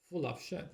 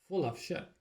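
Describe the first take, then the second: No difference in how they are said.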